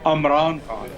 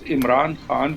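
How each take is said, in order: First: The name begins with an 'uh' vowel. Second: The name begins with an 'ee' vowel. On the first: The speaker calls it wrong. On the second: The speaker calls it right.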